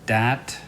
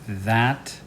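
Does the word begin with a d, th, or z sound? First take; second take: d; th. First: The word begins with a d sound. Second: The word begins with a voiced th sound.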